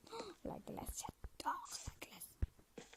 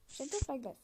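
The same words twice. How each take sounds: First: Whispered delight. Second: Said in the usual way. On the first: Real, not acted. Gushing over ice again.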